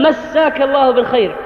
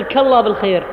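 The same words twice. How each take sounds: First: مساك in full, massaaka llaahu bil-khayr; full correct greeting. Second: كالله lower and run together, first syllables missing; clipped greeting. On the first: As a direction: pronounce all of مساك الله بالخير, nothing dropped. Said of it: "بعبارة صحيحة كاملة". (مسّاك الله بالخير كاملة) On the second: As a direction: drop massaa and start on كالله. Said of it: "لا تقل". (كالله بالخير مبتورة الأول) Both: Shown as a demonstration.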